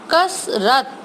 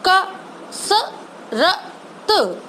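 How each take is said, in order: First: कसरत said whole and quick; blended word. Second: कसरत drawn out very slowly, higher and softer; slow sounded-out word. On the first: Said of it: "तीनों को मिला के". (कसरत को मिलाकर बोलना) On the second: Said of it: "उसका साउंड स्लो बोल रही हूँ". (कसरत को अक्षर-अक्षर धीरे बोलना) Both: Shown as a demonstration.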